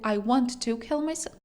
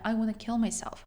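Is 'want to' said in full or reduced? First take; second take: full; reduced. First: 'Want to' is said as two full words. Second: 'Want to' is merged into one word, 'wanna'. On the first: "Want to" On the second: "Want to об'єднуємо wanna. Дуже часто в розмовній мові"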